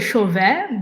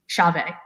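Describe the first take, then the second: First: The name is said with a French pronunciation. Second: The name is said with an American pronunciation. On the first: "I would say Chauvet" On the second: "the closest way of saying it from the American perspective"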